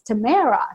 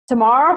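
First: Said with a Canadian pronunciation. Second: Said with a South African pronunciation. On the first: It is the locally adapted form of the name. The speaker calls it wrong. "maybe it's Tamara" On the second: It is the speaker's native form of the name. The speaker calls it right. "Tamara feels right to me. So yes, that is the South African in me"

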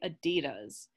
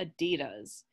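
First: It is said the American way. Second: The same.

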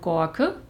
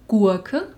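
First: The vowel sounds like an o. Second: The vowel sounds like a u. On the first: "Ebenso rede ich von" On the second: "Was eigentlich"

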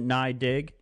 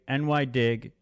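First: NY is said as one syllable, nye. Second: NY is said as two letters, N Y. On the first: The speaker calls it wrong. "Nye is the wrong, it's the wrong pronunciation" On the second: The speaker calls it right. "It's New York Dig, NY Dig"

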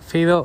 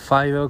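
First: It is pronounced the Spanish way. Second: It is pronounced the English way.

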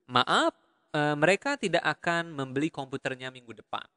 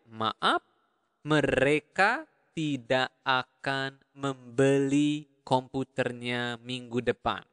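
First: The sentence is said at normal speed. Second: The sentence is said more slowly.

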